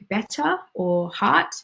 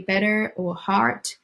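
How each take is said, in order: First: The R sounds are dropped, non-rhotic. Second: The R sounds are pronounced, rhotic. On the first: "you don't actually pronounce the R sounds" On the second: "We don't say better or heart, which might be heard in American English"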